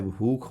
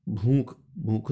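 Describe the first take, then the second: First: Said in the usual way. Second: भूख said "bhunk", vowel through the nose; mispronounced bh word. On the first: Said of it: "भूख होता है". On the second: Shown as a demonstration. Teacher showing the wrong form, भूख said as "bhoonk". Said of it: "नहीं होता है".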